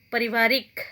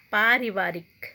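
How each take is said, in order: First: पारिवारिक said with a short a in the first syllable, pəri; first syllable of पारिवारिक clipped short; पारिवारिक as the wrong form; wrong pronunciation. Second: पारिवारिक with a long aa in the first syllable, pari; first vowel of पारिवारिक held long; पारिवारिक said right; correct pronunciation. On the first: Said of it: "अशुद्ध शब्द". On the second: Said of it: "उसको शुद्ध कैसे करते हैं". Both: Shown as a demonstration.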